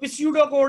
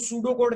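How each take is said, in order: First: The p at the start is pronounced. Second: The p at the start is silent. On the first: The speaker calls it wrong. "Sir सूडो code क्या है? ये तो पिस्यूडो code है।" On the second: The speaker calls it right. "ये इसमें पी silent है"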